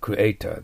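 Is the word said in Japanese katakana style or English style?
English. It is said with an English R sound. The speaker calls it right.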